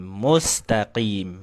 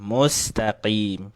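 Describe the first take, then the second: No difference in how they are said.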